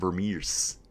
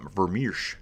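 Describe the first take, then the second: First: The surname ends with a plain s sound. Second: The surname ends with a sh sound. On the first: This is how others pronounced the name. "It was more like Florian Vermeers" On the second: This is the speaker's own pronunciation. "as I say"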